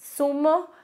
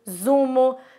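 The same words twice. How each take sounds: First: The word begins with a hissing S sound. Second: The word begins with a buzzing Z sound. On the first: The speaker calls it right. "a pronúncia é a mesma" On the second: The speaker calls it wrong. "dá uma vontade muito grande de falar zapato, zumo, azul, né? Mas assim, não é como é pronunciado no espanhol"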